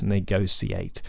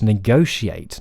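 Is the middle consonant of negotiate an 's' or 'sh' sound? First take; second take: s; sh. First: The middle consonant is an 's' sound. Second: The middle consonant is a 'sh' sound. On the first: The speaker calls it wrong. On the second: The speaker calls it right. "It should be a sh"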